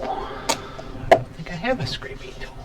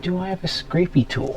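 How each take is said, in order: First: Slow whispered aside to himself; a quiet let-down murmur while searching; muttered whisper. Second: Said in the usual way. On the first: Real, not acted. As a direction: mutter it under your breath, slowly.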